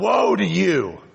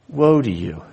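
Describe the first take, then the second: First: It is said in a harsh, condemning tone. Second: It is said in a sorrowful, compassionate tone. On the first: The speaker simply condemns those addressed. The speaker calls it wrong. "Not woe to you" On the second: The speaker grieves over those addressed. The speaker calls it right. "It also encompasses compassion and regret"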